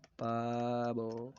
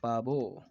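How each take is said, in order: First: पाबो with very long vowels; drawn-out repeat. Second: Said in the usual way. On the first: Shown as a demonstration. Teacher repeats the peacock's name for students, drawn out. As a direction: stretch पाबो right out.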